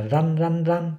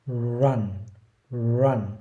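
First: "run" said without rounded lips, the usual Vietnamese way; "run" with a flat Vietnamese z-like r, lips spread; common wrong run. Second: "run" begun with rounded lips, slow r glide into the vowel; correct English run. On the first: Teacher shows the common wrong way to say run. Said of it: "nhiều người sẽ đọc là". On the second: Teacher demonstrates the correct way to say run. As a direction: round the lips first and slide "run" out slowly. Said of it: "đúng ra ấy, mình sẽ đọc là". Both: Shown as a demonstration.

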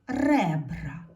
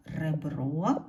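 First: Ребра with a strong, loud first Е; stress on first syllable. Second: Ребро with the final О stressed, rising; stress on last syllable. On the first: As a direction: hit the Е in ребра, then drop. (наголос на перше Е у слові ребра) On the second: (наголос на останнє О у слові Ребро) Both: Shown as a demonstration. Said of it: "поставити наголос".

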